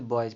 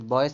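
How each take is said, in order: First: The word ends with a buzzing z sound. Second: The word ends with a hissing s sound. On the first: The speaker calls it right. "इस यस का उच्चारण निकलेगा जा" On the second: The speaker calls it wrong. "बॉयज से नहीं पढ़ते"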